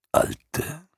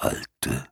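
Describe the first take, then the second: First: Alte lifted high with a rising end; high rising old creature. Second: Alte sunk low and soft; low fading old creature. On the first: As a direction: Alte as a drawn-out questioning squeak up high. Morla speaks to herself. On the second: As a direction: Alte murmured deep and quiet at the end. Morla indifferent. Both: Acted.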